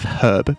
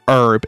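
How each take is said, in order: First: The H at the start is pronounced. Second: The H at the start is silent. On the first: The speaker calls it right. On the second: The speaker calls it wrong.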